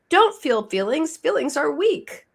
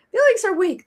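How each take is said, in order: First: "Feelings are weak" said in a higher mock-lecturing voice; first, lighter take of "Feelings are weak"; mock preachy culture voice. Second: "Feelings are weak" much higher and louder, hammed up; exaggerated mock lecture. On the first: Host imitating society's message, a light higher mock lecture. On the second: Host hams up society's message, higher and louder. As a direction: punch "Feelings are weak" harder on the repeat. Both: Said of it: "our culture says two things".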